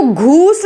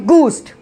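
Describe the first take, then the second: First: घूस्ट with a breathed gh; wrong pronunciation. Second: गूस्ट with a plain hard g; taught pronunciation. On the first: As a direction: start घूस्ट on aspirated "ghoo". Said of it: "इसको घूस्ट नहीं बोला जाता". (घूस्ट में "घ" की आवाज़) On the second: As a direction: start गूस्ट on "goo", no h. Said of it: "इसको बोला जाता है गूस्ट". (गूस्ट में सादा "ग") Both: Shown as a demonstration.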